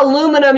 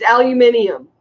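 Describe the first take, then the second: First: Aluminum said the American way, four syllables ending in -num; mock the American aluminum, no i before -um; wrong American way. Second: Aluminium said the British way, five syllables ending in -nium. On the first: YouTuber mocking American chat, says aluminum the American way. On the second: YouTuber correcting American chat, says aluminium the British way. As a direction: sound both i's in aluminium. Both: Shown as a demonstration. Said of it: "we pronounce both I's in aluminium".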